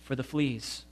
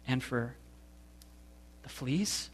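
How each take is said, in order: First: Soft and calm, simply at peace; serene. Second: Soft, rising disbelief on the fleas; can't believe what you just heard; incredulous. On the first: Betsy giving thanks for the fleas, serene and soft. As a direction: say it as if fleas were a gift. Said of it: "Betsy went on serenely". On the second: Corey hearing Betsy thank God for fleas, incredulous. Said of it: "This is too much". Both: A narrator's reading.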